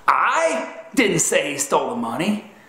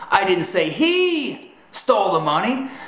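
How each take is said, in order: First: The stress falls on the word 'I'. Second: The stress falls on the word 'he'. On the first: Someone else said he stole the money. "Infers that someone else said he stole the money" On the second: Someone other than him stole the money. "that's telling them that perhaps it was her or them that stole the money"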